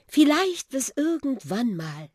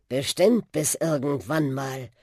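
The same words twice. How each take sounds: First: High, hesitant little car voice; Susi's goodbye. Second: Buschi's reply. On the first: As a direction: let the farewell hang, unsure. Susi says goodbye to Buschi. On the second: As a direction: promise it steadily. Buschi answers Susi. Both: A narrator's reading.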